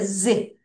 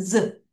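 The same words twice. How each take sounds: First: "z" as zee, lips stretched sideways; lips spread sideways. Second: "z" as a low buzz, no ee; buzzed S sound. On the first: Teacher shows students the letter's sound, lips spread sideways. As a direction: say "z" with a long ee after the buzz. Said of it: "입술을 옆으로". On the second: Teacher corrects how students say final S, buzzed S sound. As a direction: voice "z" as a short zzuh. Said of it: "S는 z". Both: Shown as a demonstration.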